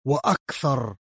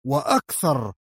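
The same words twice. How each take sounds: The two takes are said the same way.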